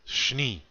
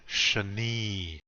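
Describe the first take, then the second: First: The sh runs straight into the n. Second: A vowel sound comes between sh and n. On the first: The speaker calls it right. "There's no letter there. It's shni" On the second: The speaker calls it wrong. "there is no A or E sound between that S and N. So don't be saying shani"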